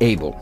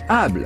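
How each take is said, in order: First: It is said with an English pronunciation. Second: It is said with a French pronunciation.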